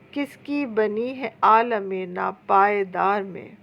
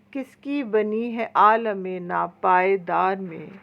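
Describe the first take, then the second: No difference in how they are said.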